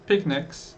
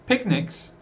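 No difference in how they are said.

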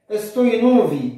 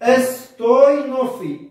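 First: Said in the usual way. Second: استوينوفي said slowly, every syllable clear; slow careful demo. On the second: Shown as a demonstration. Teacher models the Coptic word for students, slow and careful. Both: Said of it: "وكلمة اس،".

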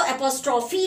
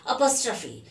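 First: एपोस्ट्रॉफी read as eh-POSS-troff-ee with full vowels; wrong pronunciation. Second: एपोस्ट्रॉफी said uh-POSS-truh-fee with a light laugh; correct pronunciation. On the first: Teacher warning students off the wrong reading, eh-poss-troff-ee. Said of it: "इसको एपोस्ट्रॉफी नहीं पढ़ेंगे". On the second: Teacher showing students the right way, uh-poss-truh-fee. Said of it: "कैसे बोलेंगे?". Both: Shown as a demonstration.

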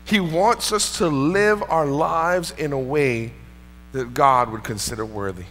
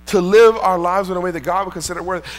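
First: Said in the usual way. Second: Live hit hard, whole line louder; stress on live. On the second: Shown as a demonstration. Pastor repeating the point louder to his congregation, stressing live. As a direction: drive the word live home.

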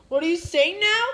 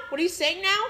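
First: Calling out puzzled; louder, not hearing; louder puzzled question. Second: Said in the usual way. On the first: Pretend. Friend asking the voiceless toy, louder. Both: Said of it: "I lost my voice".

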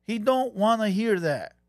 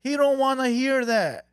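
First: Slow and deliberate. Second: Emphatic louder. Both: Shown as a demonstration.

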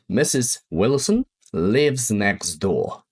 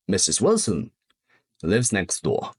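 First: Slow model sentence. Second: Said in the usual way. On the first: Shown as a demonstration. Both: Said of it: "Jeszcze jedno".

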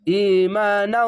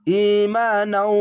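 First: ইমানাউ drawn out slowly again; slow recitation. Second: ইমানাউ with each vowel drawn long; slow recitation. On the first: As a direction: recite ইমানাউ long and even. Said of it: "এভাবে হবে". (ইমানাউ ধীরে টেনে) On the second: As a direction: stretch ইমানাউ one alif. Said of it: "এক আলিফ টেনে পড়বেন". (ইমানাউ এক আলিফ টেনে) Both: Shown as a demonstration.

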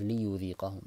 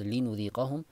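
First: ليذيقهم said with an opening ya; Bazzi reading. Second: لنذيقهم said with an opening nun; Qunbul reading. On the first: Teacher contrasting Bazzi with Qunbul, careful recitation. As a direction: start ليذيقهم on a clear ya. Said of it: "البزي says". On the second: Teacher contrasting Qunbul with Bazzi, careful recitation. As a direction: start لنذيقهم on a clear nun. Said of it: "So قنبل says". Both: Shown as a demonstration.

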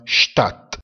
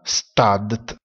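First: Stadt lento, detto SCHTAT; pronuncia tedesca. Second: Said in the usual way. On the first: Shown as a demonstration. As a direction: Stadt con ST come SCHT e DT finale come T. (Stadt scandito, T finale secca) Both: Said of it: "si pronuncia Stadt".

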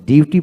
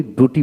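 First: ডিউটি with a y-glide, "dyu-ti"; preferred pronunciation. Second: ডুটি without glide, "du-ti"; rejected pronunciation. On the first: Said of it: "ডিউটি বলি". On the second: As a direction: say ডুটি starting "doo". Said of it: "ডুটি বলি না". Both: Shown as a demonstration.

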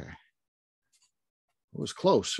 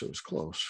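First: Very slow, stretched "It was close" with a rise on "close"; savoring the suspense of a close race; drawn out. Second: Said in the usual way. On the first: Real, not acted. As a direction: let "It was close" hang, slowly. Drawn-out musing before the result.

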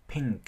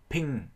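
First: "Pink" with nasal ng and popped k; ng plus final K. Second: "pink" said as "ping", Vietnamese nh ending; dropped final K. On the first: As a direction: let ng flow through the nose, then release k in "Pink". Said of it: "âm ngờ hơi chảy qua mũi và âm k". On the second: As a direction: end "pink" on the nasal, no k. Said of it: "các bạn thế bằng âm N H". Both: Shown as a demonstration.

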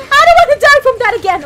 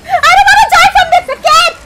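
First: Faster, still loud but without the laugh; quicker exasperated repeat. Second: Much higher and louder, yelled through laughter; half laughing, half screaming in disbelief; laughing shout. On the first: Streamer repeating his complaint to chat, fast and exasperated. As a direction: rattle it off in exasperation. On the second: Streamer dying again to the same enemy, laughing yell. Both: Real, not acted.

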